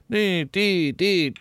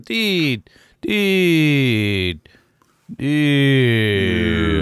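First: It is said at a steady speed. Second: It gets slower and slower.

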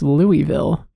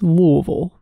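First: The first syllable is pronounced fully and clearly. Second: The first syllable is swallowed and reduced. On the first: The speaker calls it wrong. "everyone thinks it's Louisville" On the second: The speaker calls it right. "you really got to swallow that first syllable"

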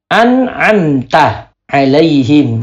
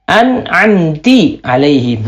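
First: The syllable before alaihim is pronounced ta. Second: The syllable before alaihim is pronounced ti. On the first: The speaker calls it right. "Harusnya dibaca ta" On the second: The speaker calls it wrong. "dia baca harokatnya salah"

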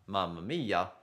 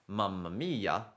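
No difference in how they are said.

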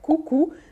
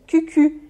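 First: The vowels are plain 'oo' sounds. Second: The vowels are pouted front 'ü' sounds. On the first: The speaker calls it right. "a palavra cucu" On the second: The speaker calls it wrong. "vai sair cucu, e aí tem um outro significado"

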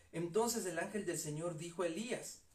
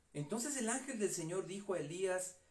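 The two takes are said the same way.

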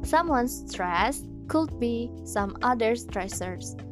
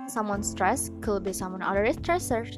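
First: The phrase is said slowly and carefully. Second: The phrase is said at a normal, quick pace. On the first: The speaker calls it right. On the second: The speaker calls it wrong.

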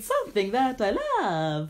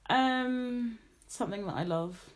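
First: The voice sounds lively and cheerful. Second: The voice sounds flat and sad. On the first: The speaker calls it right. "I don't know why I turned Italian when I did that" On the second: The speaker calls it wrong. "you sounded so sad when you said that"

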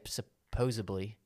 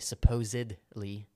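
First: It is said like supposably, with a b sound. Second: It is said like supposedly, with a d sound. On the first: The speaker calls it wrong. "some people say" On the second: The speaker calls it right. "but it's really"

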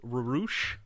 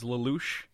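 First: The name is said with R sounds replacing L. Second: The name is said with clear L sounds. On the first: Speakers who struggle with L say it this way. "they can't say L's very well, so his name was Rarush" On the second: This is the name as it is meant to be. "the main character's name is Lelouch"

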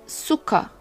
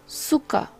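Both takes have the same delivery.

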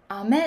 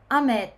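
First: The pitch starts low and then rises high. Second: The pitch starts high and then falls low. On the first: This is how the Osaka speaker says rain. "雨って言いますね。" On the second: The Osaka speaker does not say rain this way. "雨とは言わないです。"

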